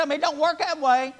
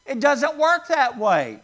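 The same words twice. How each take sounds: First: A homespun "It don't work that way"; folksy mock saying. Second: Said in the usual way. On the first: Preacher mimicking a folksy line to the congregation. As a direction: say it like a plainspoken old neighbor. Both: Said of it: "Would you look at somebody and say".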